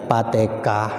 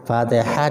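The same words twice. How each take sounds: First: It is said with Javanese-style pronunciation. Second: It is said with standard Arabic pronunciation. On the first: The speaker calls it wrong. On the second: The speaker calls it right.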